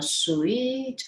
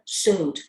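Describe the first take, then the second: First: The word sounds like 'sweet'. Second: The word sounds like 'suit'. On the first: The speaker calls it wrong. "you pronounce the word S U I T, that is uh, sweet" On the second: The speaker calls it right. "No, that just say that suit"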